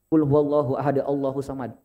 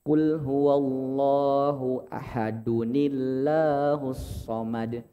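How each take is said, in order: First: Ahad is followed by Allah without an added n. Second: Ahad is joined to Allah by an added ni sound. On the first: The speaker calls it wrong. "cara bacanya bukan" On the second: The speaker calls it right. "tapi yang tepat"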